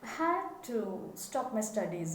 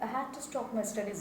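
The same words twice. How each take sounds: First: The words had to are clearly emphasized. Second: The words had to are not emphasized. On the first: The speaker calls it right. "give emphasis to had to" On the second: The speaker calls it wrong. "instead of saying"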